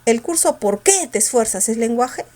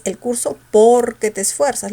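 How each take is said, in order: First: "qué" punched in "Por qué"; stress on QUÉ. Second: "Porque" with a strongly punched first syllable; stress on POR. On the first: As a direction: lean on "qué", not "Por". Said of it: "si la fuerza estuviera en el qué". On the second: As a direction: hit "Por" hard, leave "que" weak. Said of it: "La mayor fuerza está en el por". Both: Shown as a demonstration.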